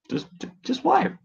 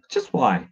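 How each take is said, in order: First: High pleading whine; squeaky exasperated why. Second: Said in the usual way. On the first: Real, not acted.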